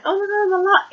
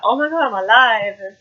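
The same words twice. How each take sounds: First: High-pitched squealed quote, barely louder; mock scream. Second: Lightly hammed-up back-from-the-dead announcement; Halloween-style revival. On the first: Girl in fake funeral shocks mourners, mock scream. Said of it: "the girl screams". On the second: Reviewer mimics girl's Halloween moment, mock-dramatic. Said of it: "like, Halloween thing".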